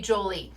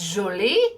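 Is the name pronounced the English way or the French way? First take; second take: English; French. First: The name is pronounced the English way. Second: The name is pronounced the French way. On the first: "Or it could be Jolie" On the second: "if it's French and it's Jolie"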